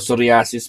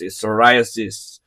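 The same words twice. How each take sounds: First: It is said with a Filipino pronunciation. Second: It is said with a standard English pronunciation. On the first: The speaker calls it wrong. "sa mga Pilipino, psoriasis po yan" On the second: The speaker calls it right. "Pero ang pronunciation po is"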